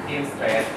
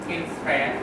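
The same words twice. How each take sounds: No difference in how they are said.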